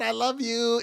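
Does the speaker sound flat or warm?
warm. It is said warmly, with strong feeling. The speaker truly means it. The speaker calls it right. "It's totally different"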